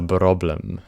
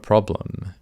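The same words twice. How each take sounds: First: The word begins with a B sound. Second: The word begins with a P sound. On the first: "swapping out the letter P for a B" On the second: "It's not a problem"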